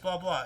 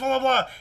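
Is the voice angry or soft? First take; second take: soft; angry. First: It is said in a soft, gentle voice. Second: It is said in a loud, angry voice. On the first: The filter has softened the caller's anger. "it'll just say it in a softer tone" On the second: The caller is screaming at the operator. "if I call you like this"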